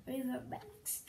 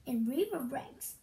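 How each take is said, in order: First: The punchline repeated much softer. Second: Said in the usual way. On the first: Real, not acted. Child reading jokes, softly repeating the punchline. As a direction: say it again under your breath, to yourself.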